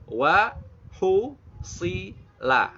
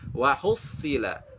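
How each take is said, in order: First: It is said slowly, syllable by syllable. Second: It is said at a normal, connected pace.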